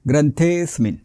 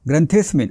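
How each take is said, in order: First: The second vowel is drawn out long. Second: The second vowel is short. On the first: The speaker calls it right. "एचा उच्चार थोडासा लांबट करायचा" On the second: The speaker calls it wrong. "असं नाही म्हणायचं"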